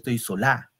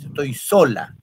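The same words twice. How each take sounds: First: The stress falls on the last syllable of sola. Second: The stress falls on the first syllable of sola. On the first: The speaker calls it wrong. "No, nunca dices, yo estoy sola" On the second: The speaker calls it right. "Tú dices, pues, estoy sola. ... El acento va en so"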